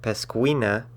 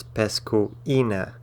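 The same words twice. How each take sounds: First: Pescuina wrongly merged into pes-KWEE-na; diphthong. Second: Pescuina slowly split as pes-koo-EE-na; broken diphthong. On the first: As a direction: run u and i of pescuina together as a KWEE. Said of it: "It's not pescuina". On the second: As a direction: separate the u from a stressed EE in pescuina. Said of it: "accent mark will break". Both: Shown as a demonstration.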